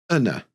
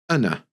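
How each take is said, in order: No difference in how they are said.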